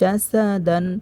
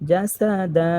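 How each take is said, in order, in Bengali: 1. এটি ছোট স্বরধ্বনি এবং তারপর 'ন' দিয়ে শেষ হয়। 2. এটি লম্বা স্বরধ্বনি দিয়ে শেষ হয়, 'ন' নেই।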